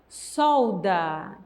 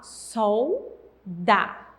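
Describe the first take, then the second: First: The word is said smoothly without a break. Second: The word is said with a pause between syllables.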